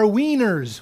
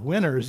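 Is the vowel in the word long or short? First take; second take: long; short. First: The first vowel is a long ee sound. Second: The first vowel is a short i sound.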